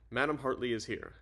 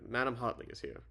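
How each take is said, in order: First: Said in the usual way. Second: Put-on light British accent, R dropped in Hartley; amateur British butler announcing a caller. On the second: Arthur announcing madam to the president, light British accent. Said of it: "oh yeah, British accent".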